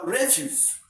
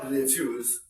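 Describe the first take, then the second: First: "refuse" with the weight on RE; stress on first syllable. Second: "refuse" with the weight on FUSE; stress on second syllable. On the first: Teacher contrasting noun and verb, stress on RE in "refuse". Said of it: "becomes a noun". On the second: Teacher contrasting verb and noun, stress on FUSE in "refuse". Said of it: "it is a verb". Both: Shown as a demonstration.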